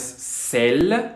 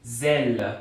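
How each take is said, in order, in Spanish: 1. El primer sonido es una s sorda, sin vibración. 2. El primer sonido es una z sonora, con vibración. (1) "No, no es cel" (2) "Tiene esa vibración"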